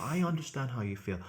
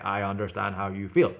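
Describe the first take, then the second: First: It sounds warm and sympathetic, with varied tone. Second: It sounds flat and mechanical, like a robot.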